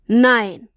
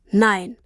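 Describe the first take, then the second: First: Louder, forceful NEIN; firm, disbelieving NEIN; emphatic refusal. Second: Said in the usual way. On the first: A narrator's reading. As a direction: push out NEIN hard, falling at the end. Father repeats refusal more forcefully.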